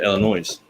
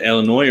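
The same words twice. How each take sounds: First: Illinois closed with a Z sound; final S sounded. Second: Said in the usual way. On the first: Shown as a demonstration. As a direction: sound out the silent S ending Illinois. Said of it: "it used to be you could say". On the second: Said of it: "Is it Illinois or is it Illinois".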